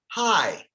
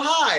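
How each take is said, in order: First: It is said quietly with low energy. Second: It is said with high, excited energy.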